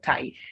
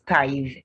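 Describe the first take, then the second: First: The th sound is voiceless, without vibration. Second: The th sound is voiced, with vibration. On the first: The speaker calls it wrong. "the word is not tithe" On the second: The speaker calls it right. "there will be a vibration in your vocal cords"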